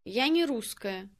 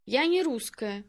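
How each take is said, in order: Both takes have the same delivery.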